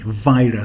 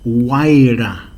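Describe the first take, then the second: First: The word begins with a V sound. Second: The word begins with a W sound. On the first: This is how another group says it. "they will say Vira with a V" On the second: This is how the speaker's own group says it. "like we would use the W, like we would say Waira to dance"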